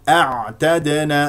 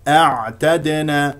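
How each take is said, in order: The two takes are said the same way.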